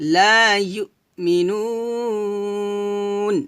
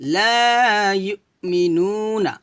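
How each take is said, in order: First: The nu vowel is long, ending in n. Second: The nu vowel is short, ending in na. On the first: The reading stops at this word. "থামলে হবে ... তিন আলিফ টান দিব" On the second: The reading continues without stopping. "নু এক লিপ টান"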